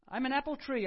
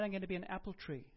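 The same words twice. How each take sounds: First: Much louder and higher proclamation; loud declaration. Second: Said in the usual way. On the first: Shown as a demonstration. Preacher declaring his own destiny, proclaimed loud and high. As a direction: proclaim it boldly to the room. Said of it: "I declare". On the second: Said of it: "God told me last night".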